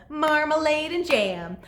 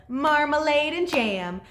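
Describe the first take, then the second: Both takes have the same delivery.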